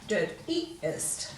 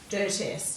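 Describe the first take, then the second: First: An 'ee' vowel is heard before the -est ending. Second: No 'ee' vowel is heard before the -est ending. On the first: The speaker calls it right. "So you need to keep that sound" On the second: The speaker calls it wrong. "It's not"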